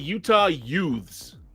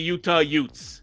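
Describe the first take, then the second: First: Youths is said with a plain th ending. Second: Youths is said as yutes, New York style.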